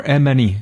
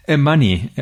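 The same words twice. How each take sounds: First: "Emani" opening on a clear "eh"; alternative pronunciation attempt. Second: "Emani" with an "uh" in the middle; first pronunciation attempt. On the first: Host corrects himself on guest's name, "Emani" as EM-eh-nee. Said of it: "my pronunciation is not certainly nowhere near perfect". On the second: Host introduces the guest, trying "Emani" as uh-MUH-nee. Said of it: "I'm not sure if I got that one". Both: Real, not acted.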